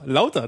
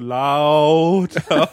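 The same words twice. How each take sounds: First: The word is said at normal length. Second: The word is stretched out long.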